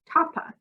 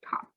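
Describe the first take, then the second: First: An extra vowel sound follows the final p. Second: The word ends cleanly on the p sound. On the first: The speaker calls it wrong. "Not toppa" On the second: The speaker calls it right. "just top"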